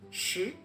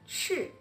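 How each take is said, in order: First: The pitch rises from middle to high. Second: The pitch falls sharply from high. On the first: "Le deuxième" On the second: "Le quatrième"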